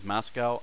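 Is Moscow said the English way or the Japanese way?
English. It is said as two syllables, English style. "What English we pronounce as Moscow"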